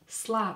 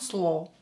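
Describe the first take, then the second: First: The vowel sounds like A. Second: The vowel sounds like O. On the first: The speaker calls it right. "not stress, so pronounce it as A" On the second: The speaker calls it wrong. "Don't say slow"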